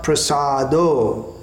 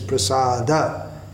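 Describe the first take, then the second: First: The word ends in an o vowel. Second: The word ends in an a vowel. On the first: The speaker calls it wrong. "And it's not Prasado" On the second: The speaker calls it right. "But here it's Prasada"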